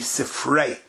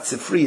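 First: The word ends in an 'ay' vowel. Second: The word ends in an 'ee' vowel. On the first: This is the original pronunciation. The speaker calls it right. "it's really Sifrei" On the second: This is the common pronunciation. The speaker calls it wrong. "it's not Sifri"

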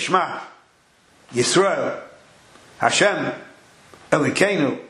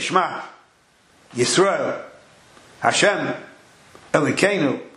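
First: Each word is separated by a short pause. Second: The same.

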